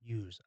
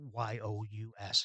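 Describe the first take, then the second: First: Use. said as one word, youse; Use. spoken plainly as youse, right after spelling it. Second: Y-O-U-S spelled letter by letter, slowly; Y-O-U-S as four slow separate letters. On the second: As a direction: spell out Y-O-U-S one letter at a time. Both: Shown as a demonstration. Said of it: "people don't say Y-O-U-S here".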